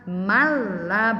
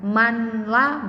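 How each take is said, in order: First: The n merges into the l, no nasal. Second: A clear n sound comes before the l. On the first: The speaker calls it right. "cara membacanya mala, langsung dimasukkan" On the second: The speaker calls it wrong. "Manla itu salah"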